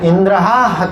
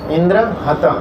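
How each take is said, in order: First: Indra is said with a long aa ending. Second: Indra is said without a long aa ending. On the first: A demon whom Indra will kill. The speaker calls it wrong. "Pronunciation mistake हो गया ... एक आकार की मात्रा का mistake हुआ" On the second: A demon who will kill Indra. The speaker calls it right. "इंद्र हत मतलब इंद्र को मारने के लिए एक असुर उत्पन्न हो"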